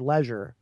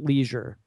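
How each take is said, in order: First: The word is said the more sophisticated way. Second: The word is said the more casual way. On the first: The speaker calls it right. "I think leisure in that context sounds more sophisticated" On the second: The speaker calls it wrong. "not leisure"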